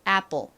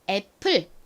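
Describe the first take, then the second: First: It is said American-style with a light popped p. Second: It is said with Korean-style pronunciation. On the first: The speaker calls it right. "미국식으로는 이 단어를 보통 apple, apple 요렇게 살짝 뽕 소리가 나게 발음을 합니다" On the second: The speaker calls it wrong. "한국식으로는 보통 저희가 이렇게 쓰고 읽잖아요"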